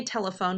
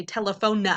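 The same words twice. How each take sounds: First: Said in the usual way. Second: Telephone said as tele-pho-NUH; added "nuh" ending. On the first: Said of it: "When we say telephone". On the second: Shown as a demonstration. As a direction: tack a false "nuh" onto the end of telephone. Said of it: "There's no "n" at the end".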